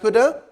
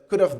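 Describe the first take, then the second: First: The words are reduced and run together. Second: Both words are said fully and separately. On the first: "it can be pronounced that shoulda, woulda, coulda" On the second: "you can say should have, ... could have done it"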